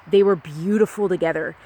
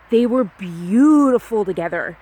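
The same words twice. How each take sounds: First: Said in the usual way. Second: "beautiful" drawn out slowly and louder; stress on BEAUTIFUL. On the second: Real, not acted. Recalling the couple to a listener, "beautiful" stretched out emphatically. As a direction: lean hard and long on the word "beautiful".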